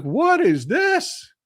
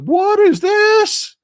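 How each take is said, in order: First: Baffled. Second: Much higher, slow, stretched-out disbelief; baffled. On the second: Spotting costumed baseball players on a restaurant screen, stunned high disbelief. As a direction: squeak it out like you can't believe your eyes. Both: Retold or imitated. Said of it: "I was like".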